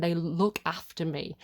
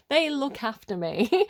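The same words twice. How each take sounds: First: Said in the usual way. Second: "They look after me" slower, higher and stronger; emphatic repeat. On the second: Real, not acted. Repeats it with feeling, then laughs.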